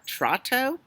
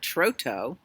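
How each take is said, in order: First: The first vowel is a short o sound. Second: The first vowel is a long o sound. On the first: "if it was Trotto, it would be two T's" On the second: "If you're a student of English pronunciation, you would call it Troto"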